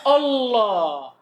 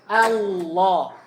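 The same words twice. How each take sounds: First: The first vowel is thick, like 'o'. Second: The first vowel is thin, like 'a'. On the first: The speaker calls it wrong. "Kadang orang baca apa? ... O" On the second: The speaker calls it right. "Bukan O. A"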